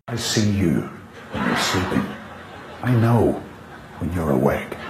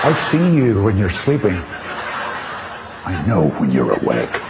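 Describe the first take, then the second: First: It is said in a plainer, less jolly way. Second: It is said in a jolly, Santa-like way.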